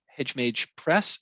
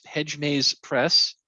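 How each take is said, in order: First: Slow "Hedge Mage Press" with the j sound in "Mage"; misspoken name. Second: "Maze" said with a clear z sound, slowly; slow careful "Hedge Maze Press" with a z in "Maze"; corrected name. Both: Real, not acted.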